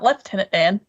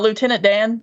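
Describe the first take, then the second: First: Lieutenant is said the British way, 'lef-tenant'. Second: Lieutenant is said the American way, 'loo-tenant'. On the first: This is the odd form heard from others. The speaker calls it wrong. "not Lieutenant Dan" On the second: This is the familiar, expected form. The speaker calls it right. "you know, Lieutenant Dan"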